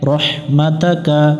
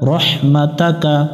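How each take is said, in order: First: The vowel after rahmat is a. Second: The same.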